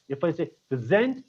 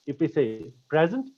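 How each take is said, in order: First: "present" said pre-ZENT, second syllable stressed. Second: "present" said PREZ-ent, first syllable stressed. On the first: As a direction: lean on the last syllable of "present". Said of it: "you are using it as a verb". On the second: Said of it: "stress the first part of the word". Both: Shown as a demonstration.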